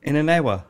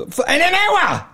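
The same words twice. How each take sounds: First: Said in the usual way. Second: High-pitched, incredulous repeat of the question; incredulous echo. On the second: Retold or imitated. Shopkeeper retelling shock at customer's deadline, incredulous. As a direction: shoot the pitch right up in mock disbelief.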